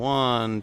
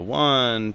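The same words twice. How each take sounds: First: The voice is recorded at a lower level. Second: The voice is recorded at a higher level.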